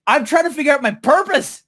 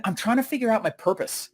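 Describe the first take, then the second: First: High, indignant retold insistence; exasperated insistence. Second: Softer, higher earnest reply; earnest answer. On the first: Speaker to laughing friend, exasperated insistence. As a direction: insist in mock outrage, pitch way up. Repeats answer, protesting the laughter. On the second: Retold or imitated. Speaker answers friends asking how it's going, earnest and soft. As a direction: confide it quietly, retelling yourself.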